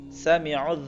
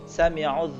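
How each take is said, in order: No difference in how they are said.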